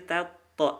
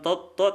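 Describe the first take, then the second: First: The vowel is a full open a. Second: The vowel is not a full open a. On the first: The speaker calls it right. "tapi tato, a" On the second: The speaker calls it wrong. "bukan toto"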